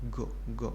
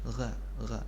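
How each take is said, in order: First: The first sound is a hard, stopped g. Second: The first sound flows with air and friction. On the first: The speaker calls it wrong. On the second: The speaker calls it right. "masih ada udara yang mengalir keluar"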